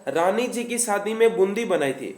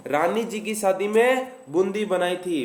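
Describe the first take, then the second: No difference in how they are said.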